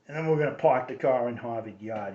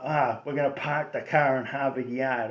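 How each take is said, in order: First: Kennedy accent. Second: Dropped r Boston accent, car and yard without r; lightly done Boston working-class accent. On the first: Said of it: "which is the Kennedy accent". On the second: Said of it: "there's two accents in Boston". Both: Shown as a demonstration.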